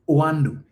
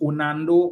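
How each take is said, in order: First: The name has no extra n sound. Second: The name has an extra n sound. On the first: The speaker calls it right. "pronounce the name or know the name of the company" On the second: The speaker calls it wrong. "both of them continue to say Onando"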